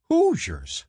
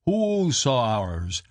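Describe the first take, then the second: First: Said in the usual way. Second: "Hoosiers" broken up as hoo-sow-ers; mock Shawnee expression. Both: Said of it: "comes from the Shawnee expression".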